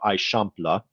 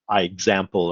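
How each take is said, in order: First: It is said as one Catalan word. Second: It sounds like 'I' plus 'example'. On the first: The speaker calls it right. "This is actually pronounced" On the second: The speaker calls it wrong. "versus I example or anything like that"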